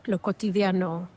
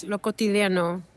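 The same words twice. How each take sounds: First: Lo cotidiano savoured in Spanish, vowels pure; Spanish word. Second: Lo cotidiano in Spanish, ti and di crisp, final o pure; Spanish word. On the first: Closing her explanation of the word, Spanish. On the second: Explaining a poetic Spanish word, in Spanish. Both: Shown as a demonstration. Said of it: "a very beautiful poetic word".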